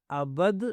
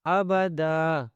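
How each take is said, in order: First: ابد cut short on the d, no final vowel; short mistaken reading of ابد; wrong stop. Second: ابدا ending on a long held "daa"; slow pausal ابدا, no n sound; correct stop. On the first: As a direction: say ابد ending abruptly on "bad". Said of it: "غلط ہو جائے گا". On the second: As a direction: chant ابدا slowly and stop on the vowel. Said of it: "اس طرح سے آپ نے رکنا ہے". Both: Shown as a demonstration.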